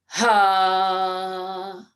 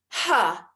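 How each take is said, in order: First: The breath sound is driven from the belly. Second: The breath sound is pushed from the throat. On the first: The speaker calls it right. "support that maha prana sound from down below" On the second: The speaker calls it wrong. "like from the throat"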